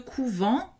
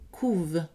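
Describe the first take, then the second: First: The word ends in a sounded nasal vowel. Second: The word ends on the v sound. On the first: It is a noun meaning a convent. "ça c'est un nom, donc on prononce E N T" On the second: It is a plural verb meaning they brood. "E N T, ici est une terminaison du pluriel, donc c'est silencieux"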